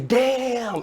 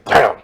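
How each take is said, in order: First: It sounds amazed. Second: It sounds angry.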